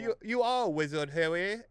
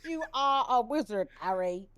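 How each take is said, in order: First: High, loud hammed-up Hagrid; terrible fake British Harry Potter line; bad British accent. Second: Louder, slower mock British, laughing; laughing terrible British impression; bad British accent. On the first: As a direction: deliver the famous line badly British. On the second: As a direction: drawl it out while laughing. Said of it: "so bad".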